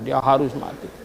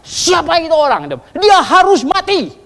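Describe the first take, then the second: First: Quiet repeat. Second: High, loud outraged roar; furious shout. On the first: Shown as a demonstration. Preacher repeats the verdict softly. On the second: Retold or imitated. King David condemns the rich man in a fury, shouting. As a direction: bellow the verdict like an enraged king. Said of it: "Daud marah besar".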